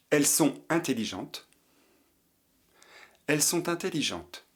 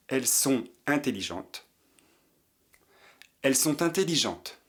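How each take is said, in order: Both takes have the same delivery.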